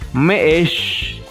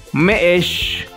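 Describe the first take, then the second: Both takes have the same delivery.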